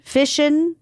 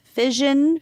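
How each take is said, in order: First: FISSION tried out as "FISH-un", pitched up. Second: FISSION tried out as "FIZH-un", pitched up. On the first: Host testing both pronunciations, fission with an sh. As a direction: say fission with an sh, like mission. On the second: Host testing both pronunciations, fission with a zh. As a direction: say fission with a zh, like vision. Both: Shown as a demonstration. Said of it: "Is it fission or fission?".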